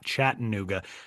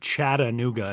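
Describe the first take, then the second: First: The second 'a' syllable is dropped or reduced. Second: The second 'a' syllable is clearly pronounced. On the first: This is how outsiders say it. The speaker calls it wrong. "and not" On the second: This is how local people say it. The speaker calls it right. "people in Chattanooga call it Chattanooga"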